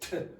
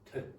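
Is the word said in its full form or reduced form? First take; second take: full; reduced. First: The word is said strongly with a full vowel. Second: The word is said quickly and quietly, weakened. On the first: The speaker calls it wrong. "So you don't say t" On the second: The speaker calls it right. "it's said very quickly and quietly"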